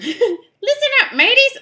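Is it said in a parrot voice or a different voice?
parrot voice. It is said in a squawky parrot voice.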